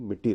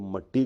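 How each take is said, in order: First: The first vowel sounds like 'i'. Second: The first vowel sounds like 'a'. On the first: The speaker calls it right. "मगर मिट्टी बोलिए" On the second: The speaker calls it wrong. "तो आप मट्टी मत बोलिए"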